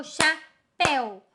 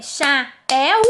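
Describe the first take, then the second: First: CHAPÉU slowly as "cha... péu"; syllables with joined vowels. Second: CHAPÉU broken before the final u, "cha... pé-u"; wrongly split syllables. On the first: Teacher offering the right division, vowels kept together. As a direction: pause after cha, then péu as one falling beat. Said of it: "elas ficam juntas". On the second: Teacher asking which division is right, split-vowel version. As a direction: pull the éu of chapéu apart into two vowels. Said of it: "Será que é o". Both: Shown as a demonstration.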